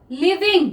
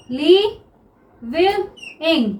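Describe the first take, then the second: First: Said in the usual way. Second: Living stretched very slowly, each syllable held; drawn-out word. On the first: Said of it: "word shown, then drawn out". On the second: Shown as a demonstration. Teacher showing students living, very slow. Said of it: "teacher drawing out the word".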